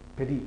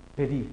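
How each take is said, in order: No difference in how they are said.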